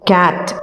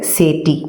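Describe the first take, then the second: First: It starts with k and ends in t. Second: It starts with ch and ends in ee. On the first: The letters are read by their sounds. The speaker calls it right. "கேட் அப்படின்னு உச்சரிக்கிறோம்" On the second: The letters are read by their names. The speaker calls it wrong. "சேட்டிங்கிற உச்சரிப்பு கரெக்டா இல்ல"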